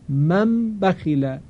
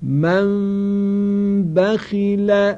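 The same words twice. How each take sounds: First: من بخیله with the lips fully closed on a clear m; wrong way: a plain, fully released m in من; slow من بخیله with a full m; m fully pronounced. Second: من بخیل very slowly, the m barely closed, with a long nasal hum; drawn-out, higher tajweed chant of من بخیل; hidden nasal m. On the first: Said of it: "اینجا میم کاملاً اظهار شد". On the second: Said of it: "توجه کنید". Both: Shown as a demonstration.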